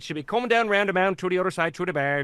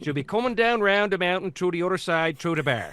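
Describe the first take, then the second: First: Quick, rolling Newfie accent; fluent Newfie accent. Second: Hesitant Newfie accent, still learning the line; careful Newfie accent. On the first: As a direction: rattle it off like a born Newfoundlander. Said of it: "And as soon as they could". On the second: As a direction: feel out every word in a Newfoundland lilt. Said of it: "Which turned into". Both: Shown as a demonstration.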